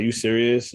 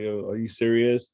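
First: Quicker retold check of disbelief; mildly incredulous, brief question; disbelieving question. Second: Drawn-out, retold "are you serious"; slow, mildly incredulous question; disbelieving question. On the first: Pulled-over biker questioning police once more, brisk disbelief. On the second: Pulled-over biker questioning police, slow disbelief. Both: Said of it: "Like, mad times in different ways".

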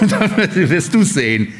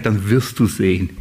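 First: Laughing, slower retort; amused, slow comeback; laughing reply. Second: A low, calm told-you-so; low, knowing reply. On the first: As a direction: toss it back through a laugh. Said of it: "Und er sagt". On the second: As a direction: drop the voice low and firm. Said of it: "sag ich". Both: Retold or imitated.

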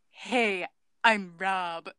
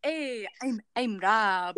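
First: Badly faked French accent, a little low; failed French accent. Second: Hammed-up Canadian accent. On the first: Actor trying out Rob's introduction, in a failed French accent. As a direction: attempt a French accent and miss it. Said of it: "That wasn't a French accent". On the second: Actor retrying Rob's introduction, in a mock Canadian accent. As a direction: try on a Canadian accent for Rob. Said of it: "Mm, Canadian".

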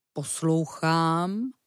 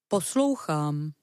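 First: Stretched slowly with a rising end; very slow drawn-out. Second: Slow, careful bear voice; drawn-out listening word. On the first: Bear listening even slower, rising. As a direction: bear straining to hear, dragging it out. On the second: Bear trying to listen, slow. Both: Acted. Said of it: "zastavil se medvěd".

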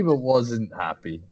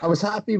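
First: Slow, weight on wasn't happy; stress on wasn't. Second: Happy lifted high; stress on happy. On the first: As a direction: lean on wasn't, slower. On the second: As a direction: push up on the word happy. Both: Real, not acted.

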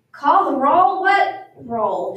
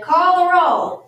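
First: Raised, questioning, then dropping back; puzzled. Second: High, loud, drawn-out reading; reading aloud from a list. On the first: New teacher puzzled by the list, asking in confusion. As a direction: question it as if baffled. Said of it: "She looked puzzled". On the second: New teacher reading the day's list aloud, loud and slow. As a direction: read out the instruction slowly. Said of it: "Amelia Bedelia read". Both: A narrator's reading.

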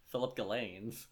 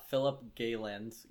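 First: Galens as guh-LAYNZ; stress on second syllable. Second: Galens with GAY stressed, first try; stress on first syllable. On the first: Host settles on the writer's surname, stress on LAYNZ. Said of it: "not spelled like Ghislaine Maxwell". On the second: Host tries the advice writer's surname, stress on GAY. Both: Real, not acted.

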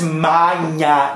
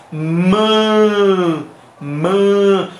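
First: Maña with a drawn-out open A; wrong Spanish-style vowel. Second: Ma held long with a nasal A. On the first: Teacher correcting learners, open-A wrong version. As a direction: stretch maña with an oral, open first A. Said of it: "Entonces no es maña". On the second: Teacher correcting learners, long nasal vowel. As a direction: hum the vowel of ma through the nose. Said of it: "la A va a sonar como". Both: Shown as a demonstration.

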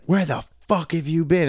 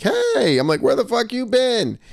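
First: Imitated indignant demand, raised pitch; mad girlfriend. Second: High, playful mock indignation; amused greeting. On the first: Angry girlfriend confronting him at the bar, imitated higher. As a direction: mimic her accusing question, higher but not shouted. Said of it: "So now she's all mad". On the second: Greeting girlfriend outside the bathroom, amused and high-pitched. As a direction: greet them high and teasing, no real anger. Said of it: "I'm just laughing about it".

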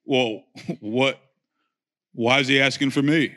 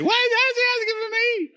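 First: Low, calm tough-guy voice; John Wayne mode. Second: Very high squeaky nasal panic; Pee Wee Herman. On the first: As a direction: stay cool like a cowboy hero. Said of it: "I wish my voice went John Wayne mode". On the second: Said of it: "Turn into Pee Wee Herman". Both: Retold or imitated.

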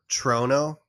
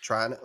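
First: "Trono" tried slowly with a long O, TROH-no; slow, halting stab at "Trono"; unsure pronunciation attempt. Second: "Trono" tried softer with an AH, TRAH-no; softer second guess, open vowel in "Trono"; unsure pronunciation attempt. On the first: Teased host guessing at the name, "Trono" as TROH-no. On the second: Host giving up on the name, "Trono" as TRAH-no. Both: Shown as a demonstration. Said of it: "I don't know".

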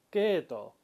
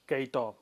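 First: Keto with a long e, no i; the correct way: Keto, stretched e; right Keto. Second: Keito with an added i, kei-to; the wrong way: Keito with the ei glide. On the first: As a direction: Keto said with a drawn-out e. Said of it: "sino decimos Keto". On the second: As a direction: Keito spoken with ei, not a long e. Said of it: "no decimos Keito". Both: Shown as a demonstration.

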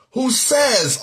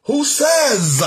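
First: "says" held and raised; raised, deliberate emphasis on "says"; stress on says. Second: "says" punched high and loud; heavy stress on says. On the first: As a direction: lean on the word "says". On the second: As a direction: hit "says" hard, high and drawn out. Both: Shown as a demonstration. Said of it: "underline the word there, says".

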